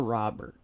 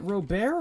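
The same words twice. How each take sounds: First: "Robert" said RAH-burt, English style; English pronunciation. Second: "Robert" said roh-BEAR, silent t; Spanish pronunciation. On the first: Asking which name is right, "Robert" said English-style as RAH-burt. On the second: Asking which name is right, "Robert" said Spanish-style as roh-BEAR. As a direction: say "Robert" as roh-BEAR, stress on the second syllable. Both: Shown as a demonstration. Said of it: "I call him Robert 'cause I'm Spanish".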